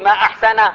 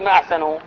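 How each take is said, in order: First: The last word ends in an 'a' vowel. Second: The last word ends in a 'u' vowel. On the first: It expresses wonder or admiration. The speaker calls it right. "إذا أردت التعجب فافتحي فاتي، قولي ما أحسن" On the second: It asks a question. The speaker calls it wrong. "لا تقولي ما أحسنوا، لأن ما أحسنوا هذا استفهام"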